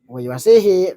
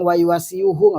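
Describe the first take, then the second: First: The word ends in -sihi, with no extra syllable. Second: The word ends in -siyuhu, with an extra syllable. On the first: The speaker calls it right. "bacanya yuwasi" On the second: The speaker calls it wrong.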